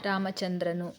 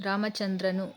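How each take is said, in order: The two takes are said the same way.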